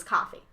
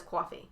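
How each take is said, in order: First: "coffee" with an open "ah" first vowel; unrounded "coffee", like "cahffee"; mom's Massachusetts pronunciation. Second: "coffee" with a rounded "kwaw" first vowel; dad's Rhode Island pronunciation. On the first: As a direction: say "coffee" as "KAH-fee". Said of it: "where my mom says coffee". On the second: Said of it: "my dad says coffee". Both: Retold or imitated.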